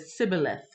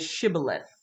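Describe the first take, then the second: First: The word begins with an s sound. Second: The word begins with a sh sound. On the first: The speaker calls it wrong. "they couldn't pronounce that, so they said sibboleth" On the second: The speaker calls it right. "The chat is shibboleth"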